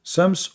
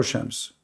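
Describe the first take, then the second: First: Slow Shams with a plain s in front; S pronunciation. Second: Slow Shams with a hushed sh in front; SH pronunciation. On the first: Comparing regional forms, Shams said with s. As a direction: say Shams as "sems", starting on s. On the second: Comparing regional forms, Shams said with sh. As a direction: say Shams as "shems", starting on sh. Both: Shown as a demonstration. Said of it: "the Ish with S".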